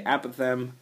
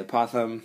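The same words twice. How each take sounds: First: Apothem stressed on the first syllable, AP-uh-them; alternate pronunciation. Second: Apothem stressed on the second syllable, uh-POTH-um; own pronunciation. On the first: Teacher showing how some people say it, apothem as AP-uh-them. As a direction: say apothem with a short 'a' as in apple up front. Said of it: "Some people say apothem". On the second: Teacher giving own way of saying it, apothem as uh-POTH-um. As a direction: say apothem with a weak first vowel and a strong POTH. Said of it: "I say apothem". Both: Shown as a demonstration.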